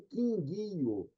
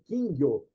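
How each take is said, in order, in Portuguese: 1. A palavra é falada em três sílabas. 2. A palavra é falada em duas sílabas. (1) "uma palavra trissílaba" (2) "Essa é a pronúncia japonesa"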